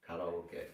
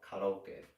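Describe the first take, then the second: First: It is pronounced with Japanese vowels and syllables. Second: It is pronounced with Japanese vowels and syllables.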